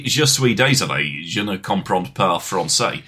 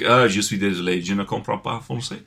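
First: Careful, slower try at a French accent; attempted French accent. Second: French said in a plain English accent; sloppy English-accent French. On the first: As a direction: put on a proper French accent, self-consciously. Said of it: "that sounds like dog". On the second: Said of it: "if I'm like". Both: Shown as a demonstration.

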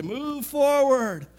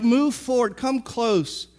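First: Slow, higher call to the back rows; drawn out and higher, urging; preacher's command. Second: Said in the usual way. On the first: Retold or imitated. Preacher urging the congregation forward, slow and higher. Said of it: "I wanna say". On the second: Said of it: "No, he's like".

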